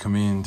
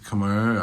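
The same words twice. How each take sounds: First: The word is said with a Thai pronunciation. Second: The word is said with an English pronunciation. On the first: "They pronounce it in Thai. They pronounce it Khmer" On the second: "I'm not sure how they even pronounce it in English, but I think it's Khmer"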